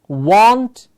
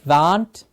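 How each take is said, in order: First: The vowel sounds like an 'o'. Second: The vowel sounds like an 'a'. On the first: The speaker calls it right. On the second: The speaker calls it wrong.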